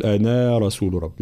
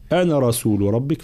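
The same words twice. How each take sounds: First: أنا with the final alif stretched; the wrong way: lengthen أنا; wrong long أنا. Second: أنا with a short final vowel; أنا kept short. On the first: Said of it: "فلا نقول". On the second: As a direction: do not lengthen the a of أنا. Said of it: "فنقرأها". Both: Shown as a demonstration.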